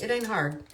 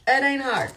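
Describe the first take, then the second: First: Said in the usual way. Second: "It ain't hard" higher and louder; emphatic repeat. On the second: Real, not acted. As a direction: drive home "It ain't hard" with more force and pitch.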